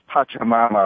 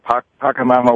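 First: The second syllable starts with a 'ch' sound. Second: The second syllable starts with a 'k' sound. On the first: This is how the local people say it. "they pronounce it as Pachamama" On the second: This is an acceptable alternative form. "although Pacamama works too"

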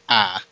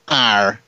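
First: The R sound is dropped, leaving only ah. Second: The R sound is clearly pronounced at the end. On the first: "because I usually say ah" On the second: "trying to, like, force it out"

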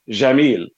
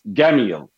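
First: The word begins with a soft J sound. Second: The word begins with a hard G sound. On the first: "So in classical Arabic, it is pronounced Jamil" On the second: "In Egyptian dialect Arabic, it's with a hard G and not a J"

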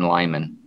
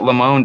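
First: The name is given a plain English pronunciation. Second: The name is given a French-sounding pronunciation.

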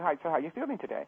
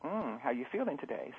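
First: Said in a bright, friendly tone for a child. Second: Said in a soft, intimate tone for a lover.

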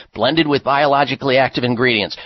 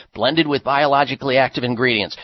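No difference in how they are said.

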